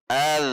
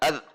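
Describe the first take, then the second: First: The final consonant flows on with friction. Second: The final consonant stops short without friction. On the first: The speaker calls it right. "ada aliran al" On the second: The speaker calls it wrong. "Tidak ad"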